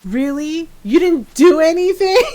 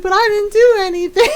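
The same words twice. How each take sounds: First: Incredulous mock outrage, rising high and loud; retold mad sister. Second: High, loud mock whine; imitated protest. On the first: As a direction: throw the excuse back like an angry sister. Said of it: "his sister got mad and goes". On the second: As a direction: protest innocence like a wronged kid, pitched way up. Retold cousin protesting his innocence.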